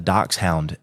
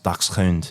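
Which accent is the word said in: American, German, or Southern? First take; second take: Southern; German. First: It is said with a Southern accent. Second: It is said with a German pronunciation. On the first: "that's like a very like southern way to pronounce it" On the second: "in like German, I think it's pronounced"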